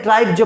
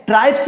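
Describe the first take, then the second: First: ट्राइब जो as one word, "traibj"; J ending. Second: ट्राइब्स ending in a hissed S sound; wrong S ending. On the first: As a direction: end ट्राइब जो on a voiced J sound. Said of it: "ट्राइब जो पढ़ते हैं". (ट्राइब जो के अंत में 'ज' की आवाज़) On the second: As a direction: say ट्राइब्स with S, not J, at the end. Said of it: "ट्राइब्स नहीं पढ़ते हैं". (ट्राइब्स के अंत में 'स' की आवाज़) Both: Shown as a demonstration.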